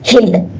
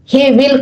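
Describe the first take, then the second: First: The words are merged into one syllable. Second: Two separate full words are said.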